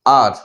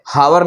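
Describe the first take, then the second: First: आर with silent h, one open vowel; आर like "our", h dropped; right pronunciation. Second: हावर with a clear h and two syllables, ha-war; हावर, aspirated h, spelled-out style; wrong pronunciation. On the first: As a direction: say आर, no h at the start. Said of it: "क्या बोलेंगे". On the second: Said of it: "हावर नहीं बोलेंगे इसको". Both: Shown as a demonstration.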